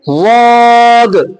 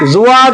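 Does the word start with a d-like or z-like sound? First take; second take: d-like; z-like. First: The word starts with a heavy d-like sound. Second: The word starts with a buzzing z-like sound. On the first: The speaker calls it right. "लगाओ किनारा" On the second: The speaker calls it wrong. "जुआद नहीं"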